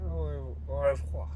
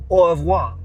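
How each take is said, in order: First: "Au, au revoir" muttered softly, testing the French sound; half to yourself, quietly try "Au, au revoir" again; soft, unsure French "Au revoir"; quiet retry. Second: "Au revoir" blurted loud and high in a mocking French accent. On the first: Shown as a demonstration. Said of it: "it has to be French". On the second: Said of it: "I don't even know how it's French".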